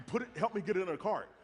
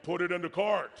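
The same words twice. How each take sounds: First: Said in the usual way. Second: Firm, louder imitation of a stern wife; mock deep voice. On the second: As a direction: lay down the order in a pretend deep voice. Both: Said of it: "her voice got deep".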